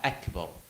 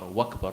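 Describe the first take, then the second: First: The word begins with a clear glottal catch. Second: The word is linked, beginning with a 'w' sound. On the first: The speaker calls it right. "make sure you clarify the Hamza" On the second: The speaker calls it wrong. "Don't say Allahu Akbar, Wakbar"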